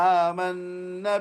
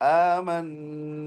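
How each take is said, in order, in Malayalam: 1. അവസാന സ്വരം ചെറുതാക്കണം. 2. അവസാന സ്വരം നീട്ടണം. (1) "നീട്ടാതെ ... അത് തെറ്റാണ്" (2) "രണ്ട് ഹർക്കത്ത് അവിടെ നീട്ടണം"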